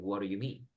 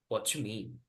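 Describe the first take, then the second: First: The d of 'do' becomes a quick r-like flap. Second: 'Do you' merges into a single 'chu' sound. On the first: "la D, convierta la, la D, en- el do en una R" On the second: "do, con you se pronuncia como chu"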